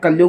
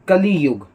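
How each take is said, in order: First: It is said quickly as two syllables. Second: It is said carefully as three syllables. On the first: "कलयुग हम ऐसे बोलते हैं" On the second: "अच्छे से pronounce ऐसे करते हैं कली युग"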